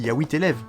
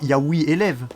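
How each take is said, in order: First: The final T of huit links into élèves. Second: The final T of huit is dropped before élèves. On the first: The speaker calls it right. "vous faites la liaison quand même" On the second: The speaker calls it wrong. "Tu dis pas"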